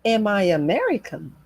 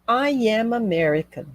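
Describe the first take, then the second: First: "Am I American" with the voice lifted on "American"; yes-or-no question tune on "Am I American"; rising question intonation. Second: "I am American" said level, easing down at the end; statement tune on "I am American", no rise; flat statement intonation. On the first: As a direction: ask "Am I American" with a clear swell on "American". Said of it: "É uma entonação que sobe ao final". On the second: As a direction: keep "I am American" flat, slightly falling on "American". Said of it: "Você percebe que é flat". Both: Shown as a demonstration.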